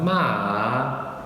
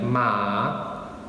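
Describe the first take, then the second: First: The pitch dips down then rises again. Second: The pitch stays level and neutral. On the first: "starts high, dips down, and then goes back up" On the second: "the neutral tone"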